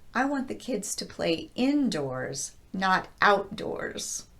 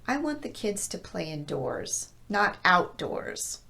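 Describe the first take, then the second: First: Indoors is stressed on in, outdoors on out. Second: Indoors is stressed on doors, outdoors on out. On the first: The contrast between the two locations is made stronger. "place the emphasis on the first word in both of these compounds" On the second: Outdoors is contrasted as the opposite location. "I'm placing emphasis on out in outdoors"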